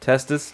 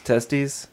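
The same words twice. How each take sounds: First: "Testis" with a short final vowel, like "TES-tis"; contrasting pronunciation. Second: "testes" with a long final vowel, like "TES-teez"; contrasting pronunciation. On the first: Host asks the urologist about two forms, "Testis" ending "-tiss". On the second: Host asks the urologist about two forms, "testes" ending "-teez". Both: Shown as a demonstration. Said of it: "Why the difference?".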